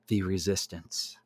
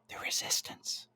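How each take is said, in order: First: The phrase is said in a full voice. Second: The phrase is said in a whisper.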